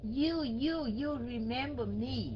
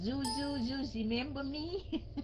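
First: You begins with a smooth y-like glide sound. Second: You begins with a buzzing z-like sound. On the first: The speaker calls it right. "Không phải you remember me, không phải như vậy" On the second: The speaker calls it wrong. "Người Bắc thường nói gì này"

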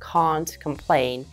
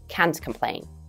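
First: The vowel in can't is long, as in father. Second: The vowel in can't is short, as in cat. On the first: "Если вы придерживаетесь британского варианта английского языка, пожалуйста, тяните звук а" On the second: "американского, допустим, произношения, тогда говорите can't"

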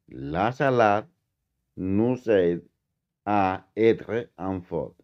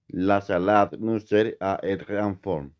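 First: The sentence is said at a slower pace. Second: The sentence is said at a faster pace.

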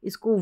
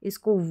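Both takes have the same delivery.

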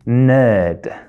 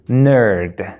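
First: It is said with a non-American pronunciation. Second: It is said with an American pronunciation.

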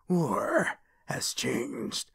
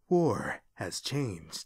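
First: It is deep with a rough rasp. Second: It is deep and smooth, without rasp.

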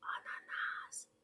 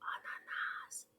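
First: The word is whispered softly. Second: The same.

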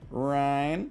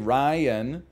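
First: The name is said as one syllable. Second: The name is said as two syllables. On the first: "you can also make it one syllable" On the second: "it's two syllables"

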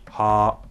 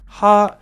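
First: The syllable is said on a low pitch. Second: The syllable is said on a high pitch. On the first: "that same syllable sung lower" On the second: "A syllable sung higher"

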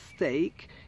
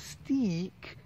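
First: The vowel sounds like 'ay' as in day. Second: The vowel sounds like 'ee' as in see. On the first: It names a piece of meat. The speaker calls it right. "a steak is a piece of meat" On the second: It is not a real word. The speaker calls it wrong. "a steek just doesn't exist"

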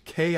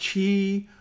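First: It begins with a hard k sound. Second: It begins with a ch sound. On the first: The speaker calls it right. "It's ki, as in kite" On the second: The speaker calls it wrong. "not chi"

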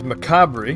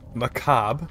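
First: The word is said as its spelling suggests. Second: The word is said in its standard form. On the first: "because that's how it looks like it's pronounced" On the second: "which is the way it's meant to be pronounced"

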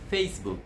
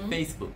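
First: The word ends on the k sound. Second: The word ends on the k sound.

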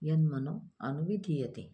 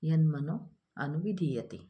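First: The words are separated and the 'a' is pronounced. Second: The words are separated and the 'a' is pronounced.

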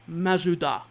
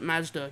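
First: The word has three syllables, with a middle vowel. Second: The word has two syllables, no middle vowel. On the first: This is how Japanese speakers say it. "They pronounce it Mazuda" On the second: This is how English speakers say it. "They don't pronounce it Mazda"

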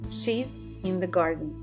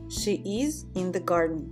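First: The verb is shortened to a short s. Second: The verb is said as a full word.

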